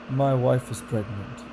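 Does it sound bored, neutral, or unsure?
bored. It sounds bored, with the pitch going down.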